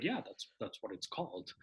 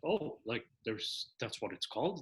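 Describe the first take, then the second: First: Retold soft confirmation, CALLED settling low; confirming answer on CALLED. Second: Retold puzzled question, voice rising at CALLED; questioning rise on CALLED. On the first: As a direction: answer quietly, dropping CALLED as a statement. Answer confirming the viewer's question. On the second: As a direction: ask softly, lifting CALLED as a question. Viewer's puzzled question about a term.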